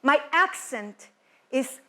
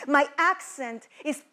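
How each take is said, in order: Both takes have the same delivery.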